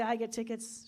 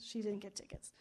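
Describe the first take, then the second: First: Said in the usual way. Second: Whispered aside, no voice at all; a hushed, voiceless punchline. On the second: Acted. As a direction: breathe it out like a secret. Punchline contrast to his claim.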